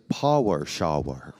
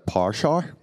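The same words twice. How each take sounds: First: It is said slowly with careful enunciation. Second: It is said quickly without careful enunciation. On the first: The speaker was making it understandable. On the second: The listeners could not understand it.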